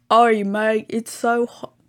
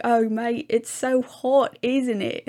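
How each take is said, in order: First: Loud, badly faked Australian accent; a clumsy Australian accent, shouted out; horrible Australian accent. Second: Higher, louder mock Australian accent; second try at Australian. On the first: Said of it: "That's a horrible Australian accent". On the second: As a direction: another go at the Australian accent, pitched up. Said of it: "He was like".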